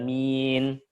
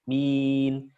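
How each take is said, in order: First: The vowel is bent toward an e sound. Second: The vowel is a clean, pure i sound. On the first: The speaker calls it wrong. "bukan min" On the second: The speaker calls it right. "Min, bukan min"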